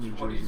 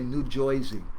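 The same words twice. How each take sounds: First: It is said in a standard, neutral accent. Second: It is said in a local New Jersey accent. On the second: "as they say, ... That's how they talk there"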